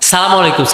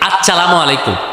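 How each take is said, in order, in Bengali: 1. সালামটি সংক্ষেপে বলা হয়, শুরুর কিছু অক্ষর বাদ দিয়ে। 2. সালামটি পুরোটাই বলা হয়।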